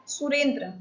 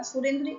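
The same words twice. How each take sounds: First: सुरेंद्र said in full with the clear r cluster, सु-रेन्-द्र; every consonant of सुरेंद्र sounded, the original form; pure pronunciation. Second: सुरेंद्र said loosely as सुरेंदा, the r dropped and the end softened; easy everyday सुरेंद्र, the cluster eased to सुरेंदा; colloquial pronunciation. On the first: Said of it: "सुरेंद्र यह मूल शब्द है". (सुरेंद्र का शुद्ध उच्चारण, संयुक्त र साफ़ बोलें) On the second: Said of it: "सुरेंद्र इस तरीके से बोल देते हैं". (सुरेंद्र को बोलचाल में सुरेंदा की तरह बोलें) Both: Shown as a demonstration.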